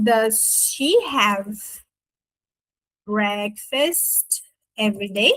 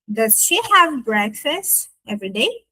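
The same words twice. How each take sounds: First: Word by word, long pauses, rising at the end; slow careful model. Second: Said in the usual way. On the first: Shown as a demonstration. Teacher building the question for students, slow careful model. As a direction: dictate the question very slowly.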